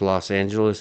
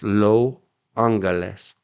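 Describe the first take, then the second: First: Los is said Spanish-style with the S sounded. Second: Los is said French-style with the S silent. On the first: "they don't say Los in mushy mouth Los Angeles Mexa Spanish" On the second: "They say it like French is with a silent S"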